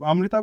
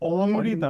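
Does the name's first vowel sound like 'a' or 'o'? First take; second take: a; o. First: The first vowel sounds like 'a'. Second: The first vowel sounds like 'o'. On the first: The speaker calls it wrong. "অমৃতা বলে দেন" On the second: The speaker calls it right. "না it's অমৃতা, first এ is ও"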